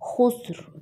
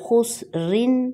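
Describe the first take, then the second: First: The word ends without a final n sound. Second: The word ends with a clear n sound. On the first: The reciter stops at this word. "اگر ہم یہاں پر سٹاپ ہوتے ہیں تو تنوین سائلنٹ ہو جائے گی" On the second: The reciter joins it to the next word. "اگر ہم یہاں پر ملاتے ہیں تو پھر خسرن"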